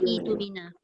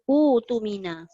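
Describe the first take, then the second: First: The word begins with an i vowel. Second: The word begins with a u vowel. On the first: The speaker calls it wrong. "Dia bukan itumina" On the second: The speaker calls it right. "maka dia jadi utumina"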